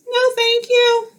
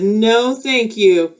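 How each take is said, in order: First: Much higher little frog voice; Frog's voice. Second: Said in the usual way. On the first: Acted. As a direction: squeak a polite refusal. Frog declines the cap.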